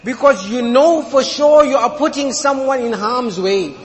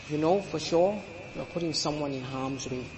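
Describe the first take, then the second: First: Loud, emphatic, leaning on sure; preacher hammering it home; forceful warning. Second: Much softer, low, drawn-in echo of the line; soft repeat. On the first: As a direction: press the point hard on sure. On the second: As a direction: drop to a hushed, grave restatement. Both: Real, not acted.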